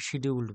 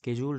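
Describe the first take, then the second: First: The word begins with an sh sound. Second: The word begins with an sk sound. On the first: This is how Bengali speakers say it. The speaker calls it wrong. "আমরা আমাদের বাঙালি জিভে এটাকে শিডিউলড বলি" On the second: This is the proper pronunciation. The speaker calls it right. "Actually উচ্চারণটা স্কেডিউলড হওয়া উচিত"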